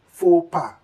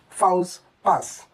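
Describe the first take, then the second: First: The final consonants are silent. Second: The final consonants are pronounced. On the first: The speaker calls it right. "Kindly pronounce this simply as faux pas" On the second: The speaker calls it wrong. "it is wrong if you say fouls pass"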